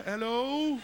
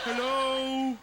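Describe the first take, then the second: First: High, loud call into the void. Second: High, loud repeated hello; calling out. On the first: Guy with no fingers calling out, high and loud. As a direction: call out hello into the cold, echoing. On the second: Calling out again on the mountain, high and loud. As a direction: shout it again, higher. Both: Acted.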